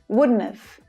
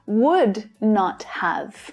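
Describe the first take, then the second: First: The words are run together in a contraction. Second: Each word is said fully and separately.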